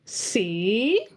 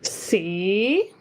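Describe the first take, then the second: First: Tone two, a different pitch contour. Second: The same.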